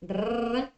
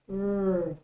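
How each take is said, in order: First: The r is said the Spanish way. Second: The r is said the English way. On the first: The speaker calls it wrong. "one of the possible ways of pronouncing the letter R in Spanish" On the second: The speaker calls it right. "it's r"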